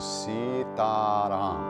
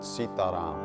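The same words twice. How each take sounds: First: All three vowels are drawn out long. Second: The vowels are clipped short. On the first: The speaker calls it right. "the correct pronunciation is Sitaram. So it's three long vowel sounds" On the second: The speaker calls it wrong. "not Sitaram"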